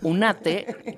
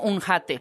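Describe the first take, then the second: First: The h is silent, starting straight with a. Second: The h is sounded as a throaty breath. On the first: "Como la H es muda" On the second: "no dijo un jate"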